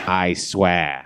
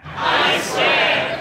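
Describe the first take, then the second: First: Said in the usual way. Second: Very high hushed echo; crowd echo. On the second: Shown as a demonstration. Crowd swearing the evil pledge, very high and hushed. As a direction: hiss it back as a tiny follower. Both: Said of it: "recite the Pledge of Evil Allegiance".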